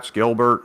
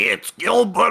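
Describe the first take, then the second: First: It is said in a plain, natural voice. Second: It is said in a put-on, grating voice. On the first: This is how he really talks. "Gilbert Gottfried using his regular voice" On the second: This is the voice he used for roles.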